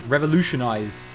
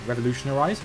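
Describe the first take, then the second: First: Said in the usual way. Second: Revolutionize garbled as "revolution-er-ize", rising in doubt; stumbled mispronunciation. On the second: Real, not acted. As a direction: question your own word, saying revolutionize as "revolution-a-rize". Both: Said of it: "re-, uh, revolutionize?".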